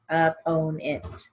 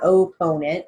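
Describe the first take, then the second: First: The first vowel is a short O sound. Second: The first vowel is a long O sound. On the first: The speaker calls it right. "so it's just O, not long O" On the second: The speaker calls it wrong. "It's not opponent"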